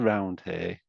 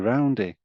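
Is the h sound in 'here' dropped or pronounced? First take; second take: pronounced; dropped. First: The h in here is clearly pronounced. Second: The h is dropped, running the words together. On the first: This is not how people in Leeds say it. "we don't say" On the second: This is how people in Leeds say it. "We say"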